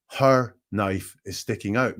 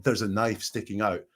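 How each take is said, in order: First: "Her" leaned on, the line slowed down; stress on her. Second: Said in the usual way. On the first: Retold or imitated. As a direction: hit "Her" in "Her knife is sticking out" and take it slowly. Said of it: "he gives ownership of the knife to Ellie".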